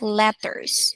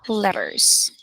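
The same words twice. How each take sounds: First: The T sound is hard and fully released. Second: The T sound is soft and quick. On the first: The speaker calls it wrong. "It's not actually hard T, like letters" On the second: The speaker calls it right. "Just letters. Very fast"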